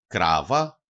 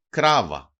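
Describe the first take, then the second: First: Κράβα stressed on Κρά, low start and rising end; penultimate stress. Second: Κράβα stressed loudly on Κρά, falling; penultimate stress. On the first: Teacher repeating the example for learners, first-syllable stress, rising. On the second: Teacher showing two-syllable words to learners, first-syllable stress, falling. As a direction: hit the first syllable of Κράβα, then drop. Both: Shown as a demonstration. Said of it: "τονίζεται πάντοτε η παραλίγουσα".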